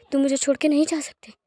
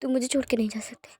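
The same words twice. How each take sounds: First: Voiced, firmer tearful plea; tearful plea aloud. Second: Whispered, broken plea; a whispered sob of a plea; tearful whisper. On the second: Acted. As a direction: breathe the words out through tears. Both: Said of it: "आंसू बह रहे होते हैं".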